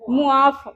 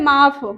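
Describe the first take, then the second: First: It is said as two syllables, mu-aaf. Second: It is said as one syllable, maaf. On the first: The speaker calls it right. "असल में जो इसकी pronunciation है वो है मु, मुआफ़" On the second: The speaker calls it wrong. "कई लोग कहते हैं माफ़"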